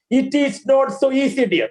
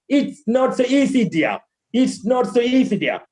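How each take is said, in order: First: "It is" as two full words; wrong way. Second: "It's" in one syllable, flowing into "not"; corrected linking. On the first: Teacher demonstrating the error, wrong way. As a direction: keep "It is" uncontracted and separate. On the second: Teacher modelling after the error, corrected linking. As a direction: contract to "It's" and let "dear" fall. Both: Shown as a demonstration.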